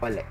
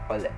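First: The word begins directly with a vowel. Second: The word begins with an H sound. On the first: The speaker calls it right. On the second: The speaker calls it wrong.

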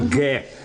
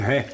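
First: The g sound is a hard stop. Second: The g sound is soft and breathy. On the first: The speaker calls it right. "Тверже г" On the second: The speaker calls it wrong. "Не ге"

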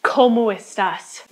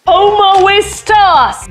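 First: The phrase is said clearly with each word distinct. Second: The phrase is slurred together and unclear. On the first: The speaker calls it right. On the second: The speaker calls it wrong.

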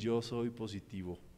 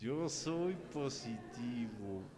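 First: It sounds flat and unconvincing. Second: It sounds cheerful, said with a smile.

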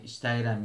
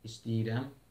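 First: It is said as spelled, with t and open vowel. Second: It is said with d and a closed vowel. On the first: This is how the word is written. "yazılır" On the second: This is how the word is actually spoken. "deyirlər"

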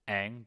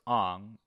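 First: The name is said the original way. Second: The name is said an altered way. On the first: This is how the name is said in the show. The speaker calls it right. "Aang becomes" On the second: This is how the name is said in the movie. The speaker calls it wrong. "pronounced different for no reason at all"

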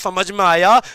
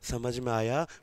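First: It is spoken loudly and forcefully. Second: It is spoken softly and quietly. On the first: "मैं दस decibel से बोल रहा हूं" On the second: "धीमे धीमे बोलूं"

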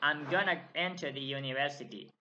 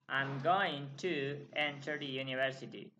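First: 'Going to' is reduced to 'gonna'. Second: 'Going to' is said fully, as separate words.

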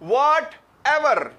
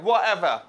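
First: The t and final r sounds are clearly pronounced. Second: The t and final r sounds are dropped. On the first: "हमें आदत है सुनने की whatever" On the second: "इस तरह करके बोलते हैं whatever"

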